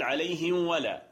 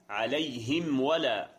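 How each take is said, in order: First: The m sound is hidden and weakened. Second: The m sound is closed fully and clearly. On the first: The speaker calls it wrong. "لا تقل عليهم ولا فتظن أن الحكم هو الإخفاء" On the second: The speaker calls it right. "لا، عليهم ولا عليهم ولا عليهم ولا، هكذا"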